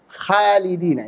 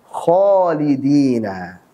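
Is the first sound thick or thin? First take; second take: thin; thick. First: The first syllable is said thin and light. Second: The first syllable is said thick and heavy. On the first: The speaker calls it wrong. "Ini salah" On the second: The speaker calls it right. "Harusnya khalidina"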